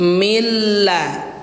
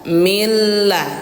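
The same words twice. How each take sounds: Both takes have the same delivery.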